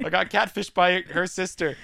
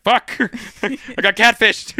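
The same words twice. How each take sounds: First: Said in the usual way. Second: Higher and louder, slow, laughing through it; cracking up while voicing the dismayed hero. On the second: Aquaman realizing he was tricked, laughing. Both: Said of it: "And he's like".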